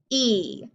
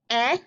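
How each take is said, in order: First: "e" said as ee, the letter's name; long E sound. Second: "E" said as eh; short E sound. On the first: Teacher drilling vowels with pupils, "e" as long ee. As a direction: hold "e" as a long ee. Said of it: "for the long sound". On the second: Teacher drilling vowels with pupils, "E" as short eh. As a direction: model "E" as a short eh. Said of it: "for the short sound". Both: Shown as a demonstration.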